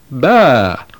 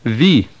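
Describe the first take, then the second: First: It starts with b and has an ah vowel. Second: It starts with v and has an ee vowel. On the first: This is how the spelling was read in antiquity. The speaker calls it right. "the ancient pronunciation is ba" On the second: This is how the spelling is read today. The speaker calls it wrong. "the modern Greek pronunciation would have the sheep say vi"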